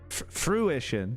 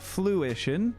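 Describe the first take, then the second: First: The word is said with an r sound. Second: The word is said with an l sound. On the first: The speaker calls it right. "Fruition, not not fluition" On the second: The speaker calls it wrong. "not not fluition"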